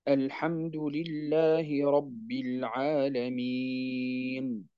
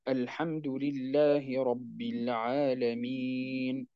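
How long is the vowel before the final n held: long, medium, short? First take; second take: long; medium. First: The vowel before the final n is held long. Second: The vowel before the final n is medium length. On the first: "وجائز فيه الطول" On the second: "وجائز فيه التوسط"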